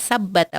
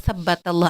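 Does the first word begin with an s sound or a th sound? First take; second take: s sound; th sound. First: The word begins with an s sound. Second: The word begins with a th sound. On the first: The listeners are told to step forward. The speaker calls it wrong. "beliau tuh menyebutnya sabbata" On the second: May God make your feet firm. The speaker calls it right. "seharusnya beliau tuh menyebu menyebutkan"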